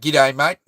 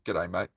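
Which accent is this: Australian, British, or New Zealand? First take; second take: Australian; New Zealand. First: It is said in a twangy Australian accent. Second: It is said in a flat, monotone New Zealand accent. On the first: "the Aussie way would be ... It's a bit more twangy" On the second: "the New Zealand way ... it's more monotone, more kind of flat"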